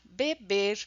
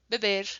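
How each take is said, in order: First: Open, full vowels in Brazilian Portuguese style. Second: Reduced vowels in European Portuguese style. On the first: "a gente usa muito constantemente vogais abertas" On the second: "no português europeu seria"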